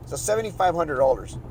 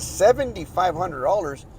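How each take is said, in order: First: Said in the usual way. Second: Slow, disbelieving repeat of the price; incredulous echo. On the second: Retold or imitated. Homeowner hearing an outrageous septic fee, slow disbelief. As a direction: echo the number like you can't believe it. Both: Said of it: "I was like".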